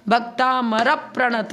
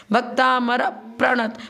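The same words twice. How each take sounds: First: Bhaktamar said slowly, र lengthened; careful slow recitation; stress on र. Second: Bhaktamar with र held and weighted; slow verse reading, र stressed. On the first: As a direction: give र its two beats in Bhaktamar. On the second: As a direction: lean on the र in Bhaktamar. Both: Shown as a demonstration. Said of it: "र पर जोर देंगे".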